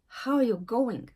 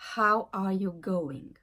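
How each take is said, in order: First: The verb is contracted onto the word before. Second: The verb is said in full, unreduced. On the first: The speaker calls it right. "Mais tu vas dire" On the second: The speaker calls it wrong. "ce n'est pas naturel de dire"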